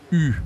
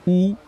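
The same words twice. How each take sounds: First: U as front rounded 'ee' with pursed lips; French U vowel. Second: Ou as back rounded 'oo', high and loud; OU vowel. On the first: Teacher contrasting it with OU, clear front U. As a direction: say U like German ü. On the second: Teacher warning learners not to confuse vowels, clear OU. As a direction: punch out Ou as in 'food'. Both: Shown as a demonstration. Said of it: "ne pas confondre le U et le OU".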